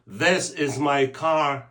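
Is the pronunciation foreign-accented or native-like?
native-like. It is said with native-like English sounds. The speaker calls it right. "people say"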